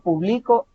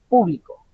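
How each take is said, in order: First: The stress is on the last syllable. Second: The stress is on the first syllable. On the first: It is an action in the past. "con un acento en la O hasta el final" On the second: It refers to a group of people. "el acento tónico está en la primera, en la primera sílaba"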